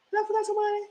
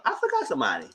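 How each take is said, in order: First: "Did I forgot somebody" pitched high as a question; high questioning tune. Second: Said in the usual way. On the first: Real, not acted. Storyteller asks viewers about forgotten picture, "Did I forgot somebody" high and questioning.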